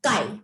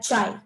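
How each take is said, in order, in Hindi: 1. यह k ध्वनि से शुरू होता है और eye से तुक मिलाता है। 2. यह ch ध्वनि से शुरू होता है और eye से तुक मिलाता है। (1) "it is pronounced as"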